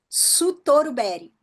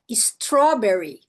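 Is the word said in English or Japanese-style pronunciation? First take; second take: Japanese-style; English. First: It is said with Japanese sounds and added vowels. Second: It is said with English sounds. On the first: "Eles pegaram o padrão de sons japonês e aplicaram as palavras em inglês" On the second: "palavras como, por exemplo, strawberry"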